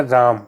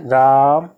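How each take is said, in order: First: Said in the usual way. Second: राम with the आ held long and slow; prolonged vowel. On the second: Shown as a demonstration. Teacher showing students the pluta vowel, राम drawn out slowly. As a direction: stretch the आ in राम, taking extra time over it. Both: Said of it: "इस तरह से time दे करके पढ़ेंगे".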